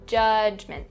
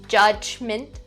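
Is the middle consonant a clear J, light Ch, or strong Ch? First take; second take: light Ch; strong Ch. First: The middle consonant is a light, quiet Ch. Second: The middle consonant is a strong, overdone Ch. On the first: The speaker calls it right. "Subtle and quieter" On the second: The speaker calls it wrong. "don't over enunciate the sound. So don't say judgment, not correct"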